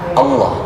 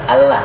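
First: The double L is pronounced thick and heavy. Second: The double L is pronounced thin and light. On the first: The speaker calls it right. "dibaca dengan tebal ... tapi Allah" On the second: The speaker calls it wrong. "bukan tipis, bukan Allah"

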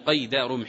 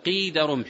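First: The first word has the vowel 'a', qayd. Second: The first word has the vowel 'i', qid. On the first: It means a shackle, something used to bind. The speaker calls it wrong. "وأما قيد بالفتح لا يطلق، لا يقال هنا قيد رمح" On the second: It means the measure of a spear's length. The speaker calls it right. "قيد رمح بكسر القاف"

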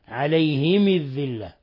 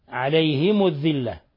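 First: Both the h and the m take i. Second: The h takes i, the m takes u. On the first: "بكسر الهاء والميم فيهما" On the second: "بكسر الهاء وضم الميم"

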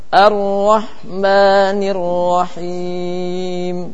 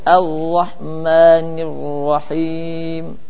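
First: The r is trilled once or twice. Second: The r is not trilled at all. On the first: The speaker calls it right. "Coba dibaca bersama-sama" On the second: The speaker calls it wrong. "Tidak boleh juga tidak ada getaran"

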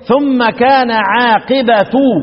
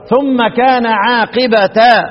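First: The last word ends in the vowel u. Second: The last word ends in the vowel a. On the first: "سما يقرؤون ايه ... تحتمل الرفع" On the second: "والباقون يقرؤون ايه ضده بقى"

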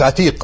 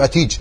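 First: The final consonant is a q sound. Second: The final consonant is a j-like sound. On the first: This is the standard form. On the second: This is the colloquial dialect form.

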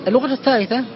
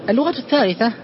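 The two takes are said the same way.

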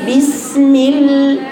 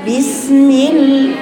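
Both takes have the same delivery.

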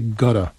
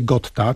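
First: The t is softened into a quick flap. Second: The t is pronounced as a crisp, clear t. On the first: The speaker calls it right. "tylko mówi się gotta" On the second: The speaker calls it wrong. "nie mówi się gotta"

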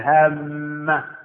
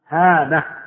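First: The m sound is held long and doubled. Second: The m sound is short and single. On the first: The speaker calls it wrong. "لا تقول هامة" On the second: The speaker calls it right. "هامة تخفيف"

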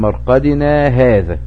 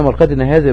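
First: A short pause without breath follows the first word. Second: The two words run together without any pause. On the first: The word 'this' points to the resurrection promised. The speaker calls it right. "سكتة لطيفة" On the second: The word 'this' points to the resting place. The speaker calls it wrong. "لو قلنا مرقدنا هذا بكلمة هذا رجعت ايه اشارة للمرق"

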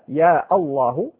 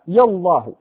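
First: A glottal stop is heard before Allah. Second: Ya runs straight into Allah without a stop. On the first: "بقطع الألف الهمزة" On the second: "أو بحذفها"

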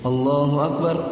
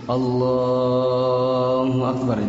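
First: The phrase is said short and quick. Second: The phrase is drawn out and lengthened. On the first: The prayer leader is going down to bow. "itu kan kayak sedikit" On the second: The prayer leader is going down to prostrate. "itu kan agak panjang"

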